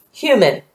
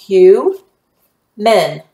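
First: Said in the usual way. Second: "Hue, men" with a long U, pause, then MEN; syllable by syllable. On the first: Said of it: "what is this syllable going to say". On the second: Shown as a demonstration. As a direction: sound out "Hue, men" as two separate syllables, HUE louder. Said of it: "the U will be long".

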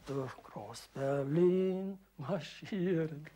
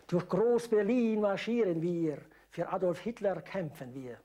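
First: Slow drawn-out quote; mock announcer. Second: Loud, slow announcer. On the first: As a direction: echo the title slowly. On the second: Retold or imitated. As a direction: call out the song title. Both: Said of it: "sagte er an".

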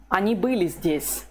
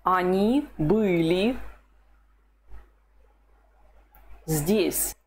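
First: Said in the usual way. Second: Они были здесь said slowly, word by word; slow model answer. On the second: Shown as a demonstration. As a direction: lay the sentence out slowly. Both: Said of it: "What's the Russian for".

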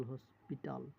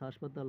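First: "হসপিটাল" as "hospital", with "o" and "i"; English-like pronunciation. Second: "হাসপাতাল" with open "aa" vowels, "hashpatal"; altered Bengali pronunciation. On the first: Teacher giving the source word, English-like pronunciation "hospital". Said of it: "ইংরেজি উচ্চারণে". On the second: Teacher showing a borrowed word's altered form, Bengali pronunciation "hashpatal". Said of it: "পরিবর্তিত উচ্চারণে". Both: Shown as a demonstration.

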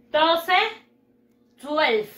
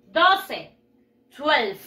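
No difference in how they are said.

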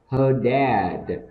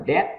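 First: "dad" with a long vowel and voiced final D; drawn-out DAD. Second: "dad" cut short, vowel not held; wrong short DAD. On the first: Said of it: "Chúng ta kéo dài cái từ dad". ("dad" kéo dài, có âm D cuối) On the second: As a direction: say "dad" too short, as the mistake. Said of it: "chứ không phải dad". ("dad" đọc ngắn, không kéo dài) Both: Shown as a demonstration.

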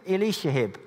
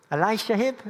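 First: "Elisha Hibb" said firmly, falling, as "ih-LEE-sha Hib"; settled name. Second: "Elisha Hibb?" asked high with a rising, doubtful tune; unsure name. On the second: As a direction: try out "Elisha Hibb" as a puzzled question. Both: Shown as a demonstration. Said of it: "whoever that guy is".

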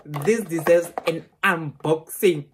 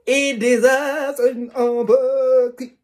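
First: Said in the usual way. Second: Slow, much higher and louder; thrilled squeal. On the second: Real, not acted. Vlogger thrilled, announcing an unboxing to viewers. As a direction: belt it out thrilled. Repeated with growing excitement.

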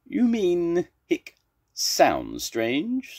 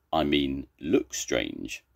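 First: High, drawn-out SOUND after a hiccup; hiccup, then lean hard and slowly on SOUND; stress on SOUND. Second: Low, firm correction leaning on LOOK; stress on LOOK. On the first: Zebra corrects Mrs. Duck, hiccuping, stressing SOUND. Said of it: "Zebra's got hiccups". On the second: Mrs. Duck corrects Zebra, low, stressing LOOK. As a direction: set LOOK apart as the corrected word. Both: Acted.

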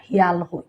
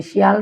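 First: শিয়াল said the Sylheti way with the opening s softened away; Sylheti pronunciation. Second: শিয়াল said the standard way with a full opening s; standard Bangla pronunciation. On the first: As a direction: drop the s sound of শিয়াল like a Sylheti elder. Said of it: "Sylheti মানুষে কিন্তু শিয়াল কই না". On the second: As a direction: give শিয়াল in textbook Bangla. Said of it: "শিয়াল রে সিলেটি মানুষে কিন্তু শিয়াল কই না". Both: Shown as a demonstration.

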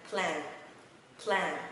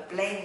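First: "Plan" with open American A, short and falling; correct plan. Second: "plan" as quick Vietnamese-style "plen"; wrong reading of plan. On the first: Teacher modelling for learners, open-vowel "Plan". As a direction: say "Plan" with a wide "ae" and clear N. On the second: Teacher warning learners off a mistake, narrow "plen" for "plan". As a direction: misread "plan" with a narrow E vowel. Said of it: "Tuyệt đối không đọc là plan". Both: Shown as a demonstration.

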